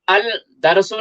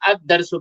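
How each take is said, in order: First: The l sound is heard before darsu. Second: The l merges into a doubled d sound. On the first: The speaker calls it wrong. "नहीं पढ़ा जा रहा है" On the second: The speaker calls it right. "बल्कि अद-दरसु पढ़ा जा रहा है"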